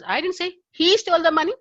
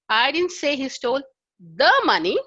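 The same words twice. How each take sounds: First: The stress is on "he". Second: The stress is on "the".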